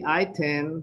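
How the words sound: The word is said with a British pronunciation. "It could be item, British"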